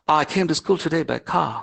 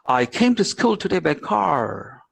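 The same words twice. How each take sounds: First: It is spoken in a British accent. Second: It is spoken in an American accent. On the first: "the Britishers will say normally it's like that" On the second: "But an American will say"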